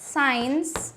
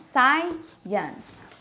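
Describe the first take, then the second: First: The word is squeezed into one syllable. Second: The word is said with two syllables. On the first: The speaker calls it wrong. "not one, not like this" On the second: The speaker calls it right. "It's still two syllables"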